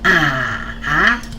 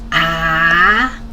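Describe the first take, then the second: First: The pitch dips down and then rises. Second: The pitch rises from mid to high. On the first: "goes down and then go up" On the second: "It's a rising tone"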